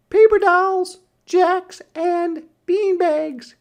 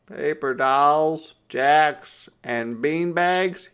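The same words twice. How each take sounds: First: Very high and loud, "Paper dolls, jacks, and beanbags" listed with relish; little sister's terms. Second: "Paper dolls, jacks, and beanbags?" in the reader's own pitch, slowed and indignant; protesting. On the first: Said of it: "she answered". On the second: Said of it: "he protested". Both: A narrator's reading.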